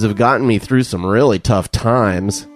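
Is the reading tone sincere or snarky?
snarky. It is read in a snarky, mocking tone. The praise is treated as insincere. "I'll read it with a snarky tone"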